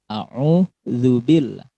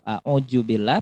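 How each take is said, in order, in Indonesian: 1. Konsonan tengahnya bunyi mirip dh yang lembut. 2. Konsonan tengahnya bunyi j. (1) "Yang benar adalah pakai huruf za" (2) "Kalau a'udzubillah pakai huruf jim, itu keliru"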